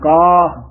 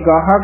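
First: The word ends on one long vowel. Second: The word ends with an extra syllable. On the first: The speaker calls it right. "ਗਾਹ ਗੱਗੇ ਦੇ ਕੰਨੇ ਨੂੰ ਵਧਾ ਦੇਣਾ" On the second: The speaker calls it wrong. "ਕਈ ਗਾਹਾ ਕਹਿ ਜਾਂਦੇ ਹਨ"

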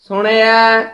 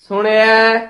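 Both takes have the same delivery.

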